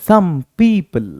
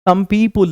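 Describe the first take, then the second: First: The last syllable is a reduced 'pl'. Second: The last syllable has a full 'pul' vowel. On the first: The speaker calls it right. "It's पीपल" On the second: The speaker calls it wrong. "Some पीपुल नहीं"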